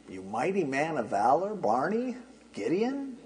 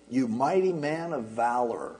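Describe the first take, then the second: First: Mock puzzled greeting. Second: Said in the usual way. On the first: Preacher teasing the congregation, puzzled mock greeting. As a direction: act like you can't find the man meant.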